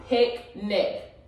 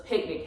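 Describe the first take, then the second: First: "Picnic" broken into pic, then nic, with a gap; "Picnic" sounded out in two distinct beats; split by syllables. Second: Said in the usual way. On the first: Shown as a demonstration. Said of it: "how many syllables does picnic have".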